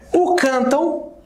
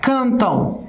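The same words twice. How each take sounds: First: "cantam" said slow, the final "am" drawn out as a nasal "ão"; teacher spells out the sound of "cantam" slowly; slowly stressed ending. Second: Said in the usual way. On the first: Shown as a demonstration. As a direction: stretch the nasal diphthong at the end of "cantam". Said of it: "aqui na parte final". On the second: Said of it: "Olha só aqui".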